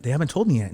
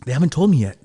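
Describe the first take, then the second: First: Said in the usual way. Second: Pressed out louder and urgent; urgent retold protest; louder insistence. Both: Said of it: "And she's like".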